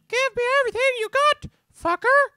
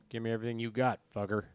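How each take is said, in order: First: It is said in a put-on character voice. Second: It is said in a plain voice.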